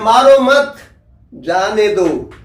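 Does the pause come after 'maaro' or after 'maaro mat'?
after mat. The pause comes after 'maaro mat'.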